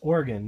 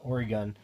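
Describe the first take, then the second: First: Oregon is pronounced the way locals say it. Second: Oregon is pronounced the way outsiders say it. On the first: The speaker is from the place. The speaker calls it right. "it's called it's Oregon" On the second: The speaker is not from the place. The speaker calls it wrong. "people come to Oregon and call it Oregon"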